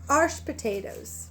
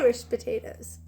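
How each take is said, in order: First: It is said in an Appalachian mountain accent. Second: It is said in a standard accent.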